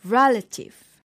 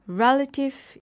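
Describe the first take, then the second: First: RELative with a strong first beat; stress on first syllable. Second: Said in the usual way. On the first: Shown as a demonstration. Teacher showing pronunciation, first syllable stressed in "relative". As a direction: punch REL in "relative", let the rest fall. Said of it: "the stress is usually on the first syllable". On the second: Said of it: "is pronounced as".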